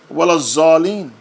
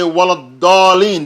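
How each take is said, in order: First: The last word starts with a Z sound. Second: The last word starts with a heavy D-like sound. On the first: The speaker calls it wrong. "not Wala Zalin with a Z. That's how some people recite" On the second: The speaker calls it right. "You have to say Wala Dalin, the dot"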